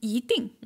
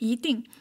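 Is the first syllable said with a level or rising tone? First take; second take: rising; rising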